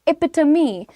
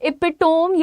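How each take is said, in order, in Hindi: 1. यह 'tuh-mee' में खत्म होता है, चार अक्षर हैं। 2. यह 'tome' जैसा खत्म होता है, तीन अक्षर हैं। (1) "the pronunciation is एपिटमी" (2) "एपिटोम ये बोलते हैं आप लोग"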